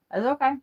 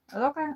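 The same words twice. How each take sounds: First: Self-soothing. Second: Soft self-soothing. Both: Real, not acted. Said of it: "self-reassurance repeated".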